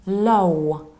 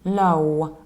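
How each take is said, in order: First: The word ends with a strong w glide. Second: The same.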